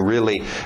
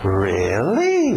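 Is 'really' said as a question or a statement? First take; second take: statement; question. First: It is said as a plain statement. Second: It is said as a surprised question. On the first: It truly happened. "De fato aconteceu isso" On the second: The listener wants to hear more. "mesma palavra, mas outra entonação e outro significado"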